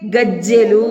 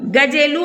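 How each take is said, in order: First: The j sound is held and doubled. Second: The j sound is short and single. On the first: "జావత్తిస్తే గజ్జెలు" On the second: "ఒకవేళ జావత్తు లేకపోతే గా జే లు గజెలు అని పలుకుతాం"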